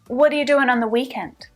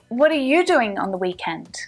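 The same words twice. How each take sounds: First: The stress falls on the word weekend. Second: The stress falls on the word you. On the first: The question is about the weekend rather than another time. "let's shift our emphasis back to the weekend" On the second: The question is about this person rather than others. "away from you"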